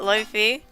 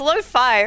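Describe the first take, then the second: First: It is said like 'luffy', with short vowels. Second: It is said like 'low-fye', with long vowels. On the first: The speaker calls it wrong. "Not lofi. ... Luffy is a really cute pronunciation" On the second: The speaker calls it right. "It's lo-fi, right?"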